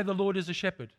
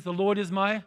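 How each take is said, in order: First: "a" said light and unstressed, "Lord" carries the stress; the wrong, impersonal reading with a throwaway "a"; distant, generic reading. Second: "my" leaned on as the key word; personal, owning "my"; stress on my. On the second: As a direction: make "my" the point of the phrase. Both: Shown as a demonstration. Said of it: "it doesn't say".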